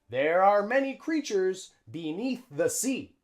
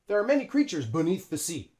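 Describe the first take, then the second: First: 'There are' is said as two full words. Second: 'There are' is squeezed into one contracted syllable. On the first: The speaker calls it wrong. "We don't say that" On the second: The speaker calls it right. "we use the contraction"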